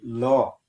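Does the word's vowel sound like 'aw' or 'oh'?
aw. The vowel sounds like 'aw', as in 'law'. This is how the Ulster dialect says it. "But up here we say law"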